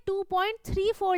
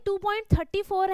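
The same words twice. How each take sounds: First: "two point थ्री फ़ोर" with each digit after the point said separately; correct digit reading. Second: "two point थर्टी फ़ोर" read as two point thirty-four, the wrong way. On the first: ("थ्री फ़ोर" को अंक-अंक करके सही पढ़ना) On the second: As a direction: show the mistake by reading "थर्टी फ़ोर" as one number. ("थर्टी फ़ोर" को एक संख्या की तरह गलत पढ़ना) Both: Shown as a demonstration. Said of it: "मैंने इसको देखो कैसे रीड किया".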